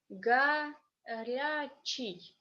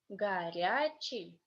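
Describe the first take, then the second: First: The word is said slowly and carefully. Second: The word is said fast, at natural speed. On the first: "First time I will be reading slowly" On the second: "the next time I will be reading fast like a normal Russian native speaker"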